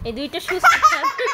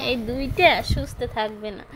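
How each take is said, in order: First: High and loud, laughing through the words; a laughing, teasing jab; laughing tease. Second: Said in the usual way. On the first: Real, not acted. Mother teasing her two restless boys, laughing. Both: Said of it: "teasing the two boys".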